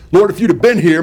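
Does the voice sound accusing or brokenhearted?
accusing. The voice sounds sharp and accusing. The listener is blamed for arriving too late. "if she was accusing Jesus of not being there in time"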